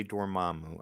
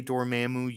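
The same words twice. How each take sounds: First: Dormammu with a broad a, dor-MAH-moo. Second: Dormammu with a flat a, dor-MAM-oo. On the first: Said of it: "you say Dormammu". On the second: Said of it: "I say Dormammu". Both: Shown as a demonstration.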